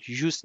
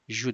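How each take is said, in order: First: The final s sound is pronounced. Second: The final s sound is silent. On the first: The speaker calls it wrong. "جوس نمیگین" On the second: The speaker calls it right. "اسش تلفظ نمیشه"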